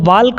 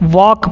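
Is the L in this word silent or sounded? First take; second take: sounded; silent. First: The L sound is clearly pronounced. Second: The L sound is left silent. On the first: The speaker calls it wrong. "इसको वाल्क मत पढ़िएगा" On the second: The speaker calls it right. "एल जो है वो silent रहता है"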